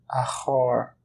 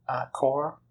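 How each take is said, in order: First: The first consonant of car is aspirated. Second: The first consonant of car is plain. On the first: The car belongs to a man. "on aspire la consonne initiale" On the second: The car belongs to a woman. "si on n'aspire pas"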